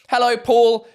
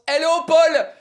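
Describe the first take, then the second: First: It is said in the speaker's ordinary accent. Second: It is said with a put-on French accent.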